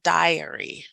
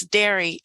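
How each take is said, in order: First: Diary said as DIE-uh-ree, three syllables; diary with the long I of die, DIE-uh-ree; diary, the name as the student says it, DIE-uh-ree; true pronunciation. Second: Dairy said as DAIR-ee, rhyming with hairy; dairy, the plain American English reading, DAIR-ee; dairy voiced like the milk word, DAIR-ee. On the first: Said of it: "it's actually pronounced diary". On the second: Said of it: "that's dairy in American English". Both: Shown as a demonstration.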